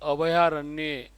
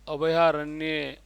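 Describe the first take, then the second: No difference in how they are said.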